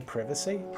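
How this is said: It is said with an English pronunciation. "We say privacy, do we?"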